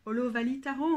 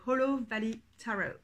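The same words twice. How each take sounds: First: Hollow Valley Tarot with a French accent; frenchified English title. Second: Hollow Valley Tarot said in an English accent; English-accented title; English pronunciation. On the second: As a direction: say the deck's title with English sounds. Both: Shown as a demonstration. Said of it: "on va dire avec l'accent français".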